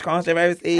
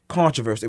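First: It is said as a doubtful, mocking question. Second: It is said as a firm, direct statement.

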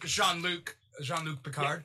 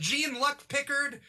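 First: The name is said with French-style sounds. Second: The name is said with English-style sounds. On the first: This is how a native French speaker says it. The speaker calls it right. "a French person is like, no, I'm pretty sure I know how to pronounce it" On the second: This is the familiar version people have been using. The speaker calls it wrong. "we've been calling him Gene Luck Pickard for like a while now"

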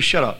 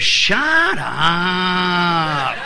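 First: It is said in a plain, ordinary accent. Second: It is said in a moaning London accent.

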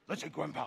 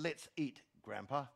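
First: It runs straight on with no pause before Grandpa. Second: There is a pause before Grandpa.

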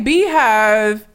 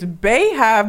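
First: The first syllable sounds like 'bee'. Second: The first syllable sounds like 'bay'. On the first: The speaker calls it right. "I say Beehive" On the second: The speaker calls it wrong. "Somebody told me it's Beehive, but that sounds stupid to me"

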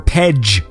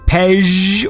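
First: The consonant is a hard 'j' as in jam. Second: The consonant is a soft 'zh' as in beige. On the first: The speaker calls it wrong. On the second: The speaker calls it right.

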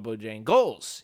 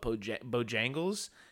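First: The stress is on the last syllable. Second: The stress is on the second syllable. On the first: "Kind of hit it at the end" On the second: "I have been saying it very northernly"

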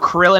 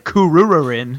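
First: It is said with an English pronunciation. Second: It is said with a Japanese pronunciation.

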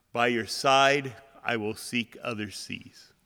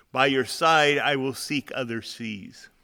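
No difference in how they are said.

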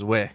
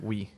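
First: Oui is said with a Cajun French pronunciation. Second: Oui is said with a standard French pronunciation. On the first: The speaker calls it wrong. "Cajun French is oui" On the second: The speaker calls it right. "Real French is like oui"

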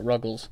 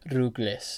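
First: The name is said with an English accent. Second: The name is said with a Spanish accent. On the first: "I say Ruggles in the whitest tone" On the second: "It's like Rugles"

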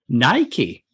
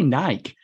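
First: It is said the American way. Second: It is said the British way.

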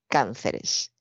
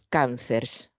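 First: The stress is on the first syllable. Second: The stress is on the second syllable. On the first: The speaker calls it right. "se convierte en palabra esdrújula y es cánceres" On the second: The speaker calls it wrong. "un error muy, muy común"

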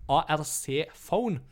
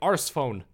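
First: The first syllable sounds like 'ark'. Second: The first syllable sounds like 'arse'. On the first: "noe som kalles for en ARC-phone" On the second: "det føles veldig, veldig feil å si Arce-phone. Your arse phone is beeping"

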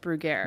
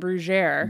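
First: The name is pronounced the American way. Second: The name is pronounced the French way. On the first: The speaker calls it right. "no, this is America. And it's Brugger" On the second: The speaker calls it wrong. "Because they pronounce the French way"

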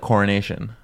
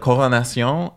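First: The word is said without a French accent. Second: The word is said with a French accent. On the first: "one without" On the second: "with a French so accent"

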